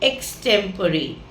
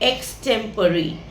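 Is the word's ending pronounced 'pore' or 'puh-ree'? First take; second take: puh-ree; puh-ree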